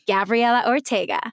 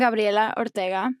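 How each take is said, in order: First: The name is said with English pronunciation. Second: The name is said with Spanish pronunciation. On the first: This form was adapted to be easy for English listeners. "which sounds like I'm telling you to watch the Disney Channel" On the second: This is the name's original form. "I have retaught myself how to say my name in Spanish"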